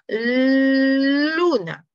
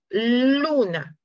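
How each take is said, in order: First: The L sound is stretched out the longest. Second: The L sound is held only briefly. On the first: "va a ser un poquito más largo cada vez" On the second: "empiezo con luna"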